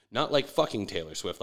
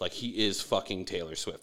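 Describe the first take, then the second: First: "like" leaned on as the word being ruled out; stress on like. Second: "he is" pressed hard to mean the same person; stress on is. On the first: Clarifying he's not sleeping with her, stress "like". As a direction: punch "like" to set up the contrast. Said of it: "like he is fucking [name]". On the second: Insisting [name] literally is [name], stress "is". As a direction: hit "he" and "is" firmly. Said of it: "Not like fucking [name]". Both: Shown as a demonstration.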